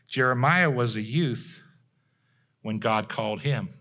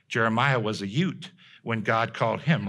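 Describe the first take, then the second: First: Plain accent, with the th in youth sounded. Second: Italian-style accent, with youth said as ute.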